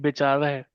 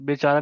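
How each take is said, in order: First: The word ends in an 'e' sound. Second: The word ends in a long 'aa' sound. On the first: The speaker calls it right. "इसकी आवाज आ नहीं होती, ए होती है" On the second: The speaker calls it wrong. "बेचारा नहीं"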